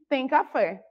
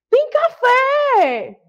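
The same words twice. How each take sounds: First: It is said flatly and sadly. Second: It is shouted loudly and happily. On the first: The speaker is not happy about it. "Desanimada, não foi, gente? Provânia falou, tristeza" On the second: The speaker is thrilled about it. "ela está muito feliz ... ela vai gritar"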